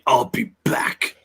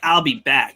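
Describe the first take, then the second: First: It is said in a deep, manly voice. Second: It is said in a plain, unforceful voice.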